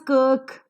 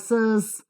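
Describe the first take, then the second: First: The word begins with a k sound. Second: The word begins with an s sound. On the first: "this is not pronounced as kirk" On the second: "or sirs"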